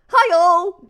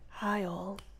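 First: It is said with wild, over-the-top enthusiasm. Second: It is said in a jazzy, playful style.

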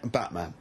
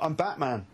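First: It is said in a deep, gravelly voice. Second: It is said in a plain, ordinary voice. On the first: The claim is meant to sound scary. "I need to do something with the voice" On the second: The claim has no impact on anyone. "Batman was probably like"

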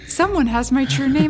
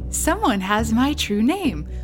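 First: It is said in an urgent, desperate tone. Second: It is said in a light, casual tone. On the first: She was pleading for help. "Or was it like, oh God" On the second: She was mentioning it offhandedly. "Was she like, hey"

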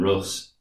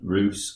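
First: The vowel does not sound like in goose. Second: The vowel sounds like in goose. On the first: The speaker calls it wrong. "it's not Kiev and Rus" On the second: The speaker calls it right. "like goose or juice"

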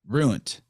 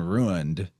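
First: The word ends with a T sound. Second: The word ends with a D sound. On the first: "they'll say ruined" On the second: "instead of saying ruined with a D at the end"

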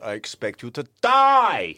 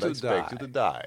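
First: The final word is said loudly and forcefully. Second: The final word is said softly and trails away. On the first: "He gives it the full die" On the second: "they slightly drop the last word"

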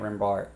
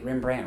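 First: The name ends with a 'bart' sound. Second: The name ends with a 'brandt' sound. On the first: The speaker calls it wrong. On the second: The speaker calls it right.

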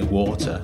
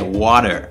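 First: It is said with a clear British t sound. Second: It is said with an American d-like middle sound. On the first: "I say water" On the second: "you say water"

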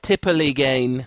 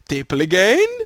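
First: It is said in a plain, normal voice. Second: It is said in a comic mock Swedish-chef voice. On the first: "That's my guess" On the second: "just pretend you're the Swedish chef on the Muppets, and then say it"

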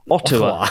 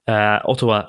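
First: The name is said with ordinary English pronunciation. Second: The name is said with Japanese-style pronunciation. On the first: The speaker calls it right. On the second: The speaker calls it wrong.

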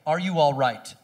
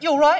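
First: It is said at a normal, unhurried pace. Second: It is squished together and said quickly.

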